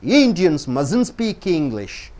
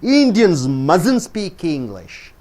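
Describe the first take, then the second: First: The words are run together as one contracted word. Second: The words are run together as one contracted word.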